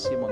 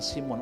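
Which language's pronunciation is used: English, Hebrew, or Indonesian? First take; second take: English; Indonesian. First: The name is said the English way. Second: The name is said the Indonesian way. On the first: "orang Inggris bilang Simon" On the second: "Orang Indonesia bilang Simon"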